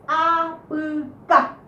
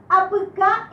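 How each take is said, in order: First: Apucá very slow, split up, stress on final "cá"; acento final. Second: Said in the usual way. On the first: Shown as a demonstration. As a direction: draw out apucá and land on "cá". (apucá muy lento, silabeado, acentuando "cá") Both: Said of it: "la última sílaba es más fuerte".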